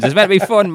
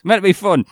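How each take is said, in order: First: Meant pushed high, insisting; stress on meant. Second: Meant hit high again, insisting; repeated stress on meant. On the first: Telling his co-host to lighten up, meant stressed high. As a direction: lean hard on meant, higher. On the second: Repeating to his co-host that it's meant to be fun. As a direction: stress meant once more, pitched up. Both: Real, not acted.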